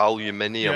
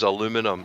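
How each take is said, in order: First: It is said the British way. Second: It is said the American way. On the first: The speaker calls it right. "everybody knows it's aluminium" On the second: The speaker calls it wrong. "he pronounced aluminium wrong"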